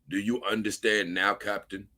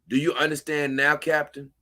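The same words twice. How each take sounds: First: It is said in the character Thrawn's voice. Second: It is read in the speaker's plain voice.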